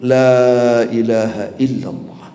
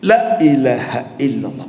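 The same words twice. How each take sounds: First: The vowel of the first word is held long. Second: The vowel of the first word is cut short. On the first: Nothing deserves worship except God. The speaker calls it right. "La itu dua harakat minimal" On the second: Truly every object of worship is God. The speaker calls it wrong. "mengucapkan la-nya pendek"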